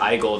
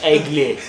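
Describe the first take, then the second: First: It is said with an English pronunciation. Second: It is said with a French pronunciation. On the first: The speaker calls it wrong. "when I said Eagle, they're like, what are you saying?" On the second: The speaker calls it right. "They like say it very French"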